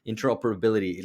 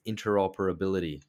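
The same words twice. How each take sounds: First: "Interoperability" said carefully, a touch firmer; "Interoperability" as a deliberate second attempt. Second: Said in the usual way. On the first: Shown as a demonstration. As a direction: take care over each syllable of "Interoperability". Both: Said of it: "I'm gonna try to say that slowly".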